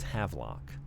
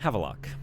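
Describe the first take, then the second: First: No extra syllable sits in the middle. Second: An extra schwa syllable sits in the middle. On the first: The speaker calls it right. "But it's Havelock" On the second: The speaker calls it wrong. "I've been putting an extra little schwa syllable in there"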